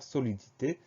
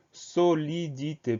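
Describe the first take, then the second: First: Said in the usual way. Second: "solidité" split slowly into so-li-di-té; slow dictation of "solidité", each syllable separate. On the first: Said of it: "pas de difficulté particulière". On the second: Shown as a demonstration. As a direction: sound out "solidité" one syllable at a time. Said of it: "Première syllabe".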